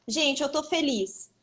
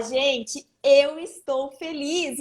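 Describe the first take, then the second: First: "tô" clipped and casual, slow. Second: "estou" said in full, every syllable, very slow. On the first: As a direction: say "eu tô feliz" the relaxed everyday way. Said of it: "é a mesma coisa eu falar". ("tô" dito de forma casual e contraída) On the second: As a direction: spell out "eu estou feliz" carefully and deliberately. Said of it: "Outra coisa eu falar". ("estou" pronunciado por inteiro, bem devagar) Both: Shown as a demonstration.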